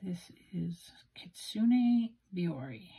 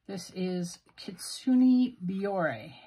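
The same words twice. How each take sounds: First: Whisper. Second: Kitsune Biore spelled out slowly, syllable by syllable; careful try at Japanese name. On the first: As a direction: whisper "Kitsune Biore" slowly, with no voice at all. Whispered retake of ink name. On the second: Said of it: "My pronunciation is horrible". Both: Real, not acted.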